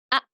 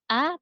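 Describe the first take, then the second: First: The vowel starts with a pressed, abrupt catch. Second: The vowel starts softly without a pressed catch. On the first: The speaker calls it right. "tapi A. Harus eh, seperti tertekan" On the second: The speaker calls it wrong. "bukan A"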